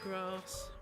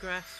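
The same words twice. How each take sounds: First: The vowel is long and open. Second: The vowel is short and flat. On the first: This is how speakers from elsewhere say it. "rather than" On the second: This is how northern English speakers say it. "my vowels are flat. I talk of"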